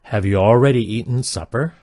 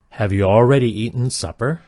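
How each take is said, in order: Both takes have the same delivery.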